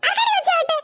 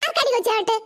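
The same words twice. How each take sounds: First: Higher-pitched, affronted repeat; indignant challenge. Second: Said in the usual way. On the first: Acted. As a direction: demand it back, offended. Offended grandmother repeats her challenge.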